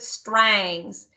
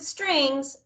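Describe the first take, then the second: First: The word is said with a twangy country accent. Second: The word is said in a plain, neutral accent. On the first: It refers to the fiddle in country or bluegrass music. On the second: It refers to the violin in classical music.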